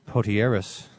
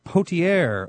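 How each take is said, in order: First: The final letters of the name are pronounced. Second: The final letters of the name are silent.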